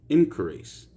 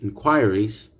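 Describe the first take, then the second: First: It is said in an American accent. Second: It is said in a British accent. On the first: "American English" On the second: "British English"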